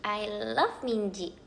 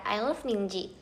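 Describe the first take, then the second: First: "love" stretched long and slow; slower fan declaration, leaning on "love"; drawn-out LOVE. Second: Said in the usual way. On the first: Real, not acted. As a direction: linger emphatically on the word "love".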